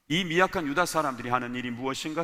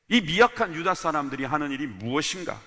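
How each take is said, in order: First: The sentence is read quickly. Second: The sentence is read more slowly. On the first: "제가 빨리 읽었죠?" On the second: "다시 한 번 더 읽기 위해서입니다"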